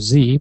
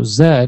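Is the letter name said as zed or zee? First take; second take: zee; zed. First: The letter is said as zee, American style. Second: The letter is said as zed, non-American style.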